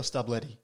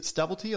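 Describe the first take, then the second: First: Stublety said as "stub-LETTY"; name as Stub-letty. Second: Stubblety said as "STUBBLE-tee"; name as Stubble-tee. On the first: Host asking swimmer which surname is right, Stublety as stub-letty. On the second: Host asking swimmer which surname is right, Stubblety as stubble-tee. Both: Shown as a demonstration. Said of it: "is it Stubblety or Stublety".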